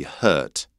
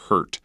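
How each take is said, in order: First: English "hurt" with no R sound; English accent, no R. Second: "hurt" with a strong North American R. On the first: Teacher showing English "hurt", R dropped. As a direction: drop the R in "hurt". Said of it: "an English accent would be hurt". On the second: Teacher showing the R in "hurt", strong North American R. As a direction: sound the R clearly in "hurt". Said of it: "There's a much stronger R sound there". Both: Shown as a demonstration.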